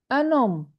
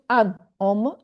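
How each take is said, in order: First: "un homme" linked as un-NOM; liaison with n. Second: "an homme" said with a break, no n link; wrong unlinked form. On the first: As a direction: join "un homme" through the n. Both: Shown as a demonstration. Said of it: "not an homme".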